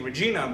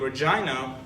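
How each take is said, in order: First: The name does not rhyme with vagina. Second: The name rhymes with the word vagina. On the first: The speaker calls it right. "rather saying Regina" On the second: The speaker calls it wrong. "I personally don't like using the capital name Regina ... sounds a little too close to vagina"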